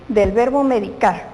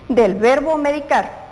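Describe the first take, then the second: The two takes are said the same way.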